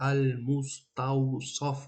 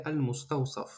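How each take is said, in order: First: Very slow, laboured "Ал-муставсаф" with heavy emphatic s; "Ал-муставсаф" drawn out, strict Arabic sod. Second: "ал-муставсаф" said easily with a light plain s; relaxed, unstretched "ал-муставсаф"; with plain sin. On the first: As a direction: stretch each syllable of Ал-муставсаф, darkening the final саф. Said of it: "Бо сод бояд бигӣ". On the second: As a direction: say ал-муставсаф in one quick go, ordinary s in саф. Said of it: "Метавонед син бигӣ". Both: Shown as a demonstration.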